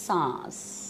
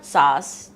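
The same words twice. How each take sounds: First: سانس said slowly with a clear nasal n, saans; correct pronunciation. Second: ساس said plainly as saas with no nasal n; wrong pronunciation. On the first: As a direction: stress the n in سانس, slow teaching tone. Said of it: "این لگانا بھول جاتے ہیں". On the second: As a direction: drop the n sound: ساس, slow and deliberate. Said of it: "this is سانس". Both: Shown as a demonstration.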